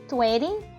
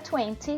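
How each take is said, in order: First: It is said with an American accent. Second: It is said with a British accent. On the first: "a pronúncia americana" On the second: "britânica"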